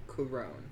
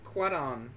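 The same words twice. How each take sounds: First: Cuarón, carefully stressed on the final rón; corrected stress. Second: Botched, awkward attempt at Cuarón; duck-like Cuarón. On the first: Host copying the co-host's correction, Cuarón stressed on rón. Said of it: "emphasis on the wrong syllable". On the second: Host failing to copy the co-host's Cuarón, duck-like. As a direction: say Cuarón clumsily, like a quack. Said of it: "I sound like a duck". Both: Shown as a demonstration.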